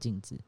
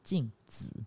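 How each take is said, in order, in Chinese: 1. 第二个音节很轻，没有声调。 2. 第二个音节带有原调。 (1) "可是不是那个镜子" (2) "是镜子，是一个人的名字"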